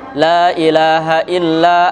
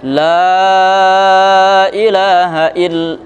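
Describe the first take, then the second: First: The vowel in la is kept short. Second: The vowel in la is drawn out long. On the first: It lacks a sense of reverence. The speaker calls it wrong. "kalau nggak panjang" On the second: It conveys a sense of reverence. The speaker calls it right. "ada kesan pengagungannya"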